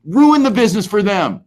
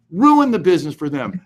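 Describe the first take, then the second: First: "ruin" punched higher and louder, falling on the rest; emphatic first take. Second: Said in the usual way. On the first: Shown as a demonstration. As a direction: hammer the word "ruin" like a rallying cry.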